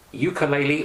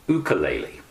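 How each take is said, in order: First: "ukulele" opening with a Y glide, "you"; anglicized "ukulele", starting like "you"; English pronunciation. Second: "ukulele" opening on a pure "oo", no Y; Hawaiian-style "ukulele", starting "oo"; Hawaiian-style pronunciation. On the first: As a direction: say ukulele as yoo-kuh-LAY-lee. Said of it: "do you pronounce it". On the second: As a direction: say ukulele as oo-kuh-LAY-lee. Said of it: "do you pronounce it ukulele or ukulele". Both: Shown as a demonstration.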